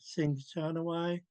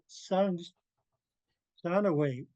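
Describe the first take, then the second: First: The first syllable has an 'i' vowel. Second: The first syllable has an 'a' vowel. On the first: This is the form the speaker learned. "I've been saying it" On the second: This is the form another speaker uses. "I heard Skiljade pronounce it"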